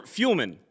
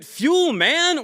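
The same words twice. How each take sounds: First: "Fuelman" with the ending shrunk to "mun"; reduced ending. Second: "Fuelman" with a long, full MAN at the end. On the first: Host checking the company's name, "Fuelman" with a weak "mun" ending. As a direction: stress only the first half of "Fuelman", swallow the vowel of man. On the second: Host checking the company's name, "Fuelman" with MAN said in full. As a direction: draw out the second half of "Fuelman". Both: Shown as a demonstration. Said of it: "is it Fuelman or Fuelman".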